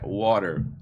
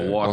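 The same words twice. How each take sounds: First: It is said with an American accent. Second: It is said with a British accent.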